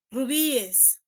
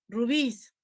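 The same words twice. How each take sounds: First: "rubíes" in three syllables, ru-BÍ-es; plural with E S. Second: "rubíes" as two syllables, ru-BÍS, no E; plural with S. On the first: Teacher showing the ES plural, "rubíes" pronounced ru-BÍ-es. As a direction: sound the E in "rubíes" after the stressed Í. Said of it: "también le puedo agregar la E S". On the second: Teacher showing the S plural, "rubíes" pronounced ru-BÍS. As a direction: say "rubíes" without the E, ending in a stressed -ÍS. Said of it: "Yo le puedo agregar la S". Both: Shown as a demonstration.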